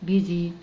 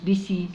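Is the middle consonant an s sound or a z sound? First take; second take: z; s. First: The middle consonant is a z sound. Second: The middle consonant is an s sound. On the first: The speaker calls it right. "لا بيزي" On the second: The speaker calls it wrong. "مش بيسي"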